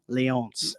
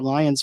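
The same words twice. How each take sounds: First: Lions is pronounced with French sounds. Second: Lions is pronounced with English sounds. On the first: The speaker calls it right. "I added the uh, French accent" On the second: The speaker calls it wrong. "I was saying the Trois Rivières Lions for the longest time"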